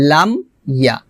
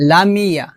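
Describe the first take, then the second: First: "লাম ইয়া" with m shut and a break before ya; closed m, separated. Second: "লামিয়া" run together with long "mi"; wrong added vowel. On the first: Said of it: "হবে". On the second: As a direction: slide it into lameeya. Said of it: "লামিয়া হবে না". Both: Shown as a demonstration.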